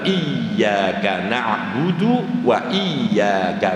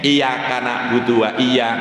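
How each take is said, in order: First: The y sound is doubled and held. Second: The y sound is single and light. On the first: Only You we worship. The speaker calls it right. "kalau kita baca siddanya jelas iyyaka" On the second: To the sunlight we worship. The speaker calls it wrong. "kalau dibaca tanpa ada syiddah khafif enteng"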